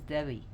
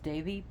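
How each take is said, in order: First: The middle consonant sounds like a W. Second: The middle consonant sounds like a V. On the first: "Some people pronounce Devi as Devi" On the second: "It's usually pronounced as Devi"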